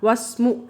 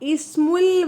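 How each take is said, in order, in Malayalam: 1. ആദ്യ സ്വരം ഒഴിവാക്കുന്നു, 'wa' യിൽ നിന്ന് നേരിട്ട് ചേർക്കുന്നു. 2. ആദ്യ സ്വരം 's' ന് മുമ്പ് ഉച്ചരിക്കുന്നു. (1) "ഒരു വാചകത്തിൻ്റെ ഇടയിലാണെങ്കിൽ നമ്മളത് ഉച്ചരിക്കുകയില്ല" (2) "ഒരു വാചകത്തിൻ്റെ തുടക്കത്തിൽ ഉച്ചരിക്കും"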